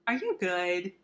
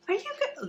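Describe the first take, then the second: First: Said in the usual way. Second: Very high squeaky pet voice; talking to a dog. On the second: Real, not acted. Cooing at the dog.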